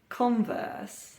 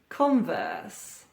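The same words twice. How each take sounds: First: The stress is on the first syllable. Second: The same.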